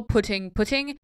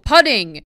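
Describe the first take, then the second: First: Putting said "puh-ting" with the short U of put; putting with the OO of foot; putting, U like in book; putting as in placing. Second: Putting said "putt-ing", rhymes with shutting; putting with the UH of cut, golf sense; putting as in putting a ball into the hole. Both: Shown as a demonstration. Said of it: "at golf it rhymes with shutting".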